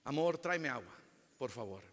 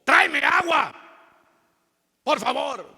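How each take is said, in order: First: Soft, tender ask to a spouse; gentle request. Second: Loud, much higher barking order; harsh demand. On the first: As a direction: ask sweetly, softly. (pedido suave y cariñoso) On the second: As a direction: snap the order at your spouse. (orden brusca y gritada) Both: Shown as a demonstration. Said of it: "es la manera que lo decimos".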